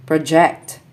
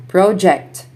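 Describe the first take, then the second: First: ProJECT, stressed on the second syllable; short pro, strong JECT in project; verb stress. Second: PROject, stressed on the first syllable; noun stress. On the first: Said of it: "verbs are stressed on the second syllable". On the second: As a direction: punch PRO in Project, then fall. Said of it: "nouns are stressed on the first syllable". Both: Shown as a demonstration.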